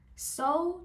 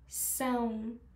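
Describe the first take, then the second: First: The vowel is oral, with no nasal sound. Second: The vowel is nasal, sounding through the nose. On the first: The speaker calls it wrong. "هیچ وقت نمیگم سو سو توی زبان پرتغالی وجود نداره" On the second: The speaker calls it right. "همیشه میگیم سون سون"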